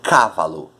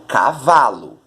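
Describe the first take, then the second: First: The stress is not on the middle syllable. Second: The stress is on the middle syllable. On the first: The speaker calls it wrong. "eu não digo cavalo" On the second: The speaker calls it right. "eu digo cavalo"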